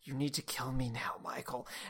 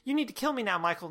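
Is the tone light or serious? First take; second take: serious; light. First: The line is said in a heavier, serious tone. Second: The line is said in a light, chipper tone. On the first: The speaker calls it right. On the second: The speaker calls it wrong.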